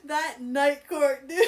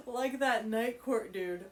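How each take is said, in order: First: Higher, slow, laughing through it; cracking up. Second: Slow, amused, laughing it out. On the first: Reader cracking up at Rune's joke. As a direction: let the laugh take over. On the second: Reader laughing at Rune's line. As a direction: repeat it through giggles. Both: Real, not acted.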